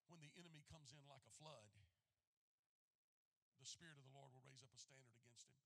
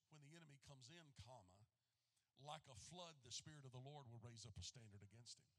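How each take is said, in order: First: The break comes after 'like a flood'. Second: The break comes after 'comes in'.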